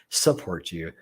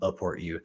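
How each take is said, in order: First: The first 's' sound of the word is clear. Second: The first 's' sound of the word is missing. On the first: The speaker calls it right. "Got to enunciate my syllables" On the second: The speaker calls it wrong. "not upport you"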